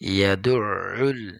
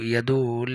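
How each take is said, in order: First: The middle throat sound is clearly pronounced. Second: The middle throat sound is dropped. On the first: The speaker calls it right. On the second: The speaker calls it wrong.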